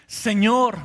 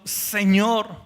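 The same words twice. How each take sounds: First: "Señor" said louder with a falling, reverent tone; emphatic Señor. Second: Said in the usual way. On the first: Shown as a demonstration. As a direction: call out "Señor" with weight and awe. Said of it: "Cuando le dice Señor".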